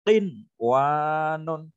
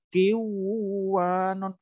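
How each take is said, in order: First: The n sound is said clearly before w. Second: The n sound merges into the following w. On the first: The speaker calls it right. "Tetapi qin wanon" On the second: The speaker calls it wrong. "Bacanya bukan kiwanon, bukan"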